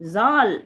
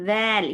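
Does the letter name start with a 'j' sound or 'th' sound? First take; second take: j; th. First: It begins with a 'j' sound. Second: It begins with a 'th' sound. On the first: The speaker calls it wrong. "ஜால் சொல்லக்கூடாது" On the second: The speaker calls it right. "நுனி நாக்கு மேற்பல் கடிப்போம்"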